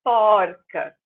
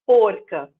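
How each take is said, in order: First: Porca with open O; porca, the first O opened. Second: Porca with closed O; wrong feminine. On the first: Teacher shows the right feminine of porco. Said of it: "Eu abro". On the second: Teacher voices the wrong feminine of porco. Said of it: "Não, eu vou falar". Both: Shown as a demonstration.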